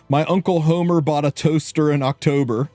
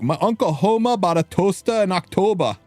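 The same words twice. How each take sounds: First: The sentence is said in a plain accent. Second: The sentence is said in a Hoboken accent. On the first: "we used to make her say things like, say" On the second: "who was from Hoboken, ... And she's like"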